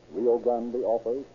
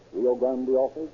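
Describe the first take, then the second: No difference in how they are said.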